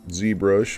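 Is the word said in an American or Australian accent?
American. It is said in an American accent. "I am Americano"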